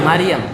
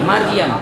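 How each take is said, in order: No difference in how they are said.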